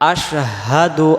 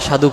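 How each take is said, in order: First: It starts with a sh sound. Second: It starts with a plain s sound. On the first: The speaker calls it right. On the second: The speaker calls it wrong.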